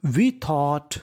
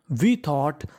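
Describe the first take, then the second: No difference in how they are said.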